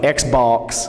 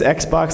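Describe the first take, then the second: First: It is said in a drawling Southern accent. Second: It is said in a plain, everyday accent.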